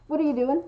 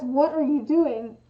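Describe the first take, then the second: First: Casual, blended question lifting at the end; interested. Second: Slow, deliberate demo of an angry question; accusing. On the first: Showing the friendly version of the question, interested. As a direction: ask it lightly, out of interest. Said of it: "implies that someone is interested". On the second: Showing that the full question implies anger, accusing. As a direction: separate each word with mild reproach. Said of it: "almost implies, like, anger". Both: Shown as a demonstration.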